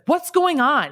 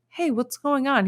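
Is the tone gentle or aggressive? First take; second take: aggressive; gentle. First: It is said in an aggressive, harsh tone. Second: It is said in a gentle, caring tone.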